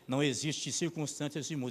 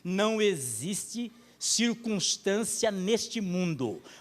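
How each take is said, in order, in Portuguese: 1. A frase é falada em ritmo rápido. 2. A frase é falada em ritmo mais lento. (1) "falo meio rápido" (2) "deixa eu falar um pouquinho mais devagar"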